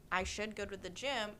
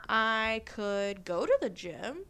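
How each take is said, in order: First: Said in the usual way. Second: Slow, louder, rising as a possibility; open-minded reframe. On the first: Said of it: "like a bossy tone". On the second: Acted. Host reframing a gym "should" as a choice, open-minded. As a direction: weigh it as one option, drawn out. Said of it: "what if I reframe that".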